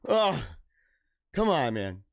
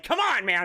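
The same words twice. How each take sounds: First: Low, resigned little plea; deflated plea. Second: Higher, pleading haggler's protest; exasperated protest. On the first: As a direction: drop the pitch and give up on haggling. Acted haggler giving up. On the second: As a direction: protest the lowball offer, pitched up. Acted haggling protest at low offer. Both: Retold or imitated.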